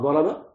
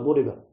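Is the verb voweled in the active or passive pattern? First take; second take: active; passive. First: The verb has active voice vowels. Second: The verb has passive voice vowels. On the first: The subject did the striking. "هكذا ضرب" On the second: The subject was struck. "مبني المجهول"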